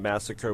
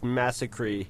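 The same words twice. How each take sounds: First: The word is said the ordinary standard way. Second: The word is said in a cartoonish way.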